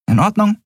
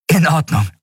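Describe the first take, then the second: First: ORDNUNG lifted high as a question; high rising check on "In Ordnung". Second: "In Ordnung" high, then falling in agreement; settled falling yes on "In Ordnung"; agreeing. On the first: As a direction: ask "In Ordnung", rising sharply on Ordnung. Captain checks the boy agrees. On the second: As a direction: answer "In Ordnung", pitch dropping on Ordnung. Boy accepts captain's order. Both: Acted.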